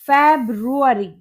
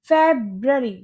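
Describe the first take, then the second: First: It has four syllables, with a 'roo' sound. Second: It has three syllables, with no 'roo' sound. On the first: The speaker calls it wrong. "क्या आप भी इसको फेब्रुअरी पढ़ते हैं?" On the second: The speaker calls it right. "इसकी correct pronunciation होती है फेब्ररी"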